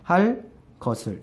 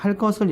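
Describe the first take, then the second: First: There is a short pause between the two words. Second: The two words run together without a pause. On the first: The consonant does not become tense. "휴지를 두면, 잠깐 쉬는 틈을 주면은 일어나지 않습니다" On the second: The consonant becomes tense. "연속 발음을 해야지 그때 일어난다는 겁니다"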